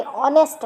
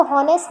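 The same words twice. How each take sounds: First: ऑनेस्ट with a silent h, starting on the vowel; correct reading. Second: हॉनेस्ट with a spoken h at the start; wrong reading. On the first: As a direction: say ऑनेस्ट, no h sound. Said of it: "ये ऑनेस्ट है". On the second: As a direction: say हॉनेस्ट sounding the h. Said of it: "तो हॉनेस्ट नहीं". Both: Shown as a demonstration.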